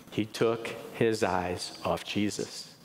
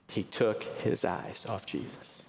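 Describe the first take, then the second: First: Said in the usual way. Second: Whispered, slow and much softer; whispered repeat. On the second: Shown as a demonstration. Preacher repeats the point to the congregation in a whisper. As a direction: breathe the line again for emphasis.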